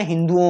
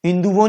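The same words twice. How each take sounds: First: हिंदुओं with no v, hindu-on; correct form. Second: हिंदुओं with a v glide, hindu-von; incorrect form. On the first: Teacher giving the correction, हिंदुओं as hindu-on. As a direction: end हिंदुओं on a pure vowel. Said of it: "हिंदुओं होता है". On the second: Teacher showing the common error, हिंदुओं said as hindu-von. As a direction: slip a v into the end of हिंदुओं. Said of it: "हिंदुओं नहीं होता है". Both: Shown as a demonstration.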